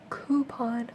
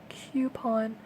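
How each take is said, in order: First: The first syllable sounds like 'koo'. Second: The first syllable sounds like 'kyoo'. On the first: "I don't say coupon" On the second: "It sounds like I put a uh, Q U in front"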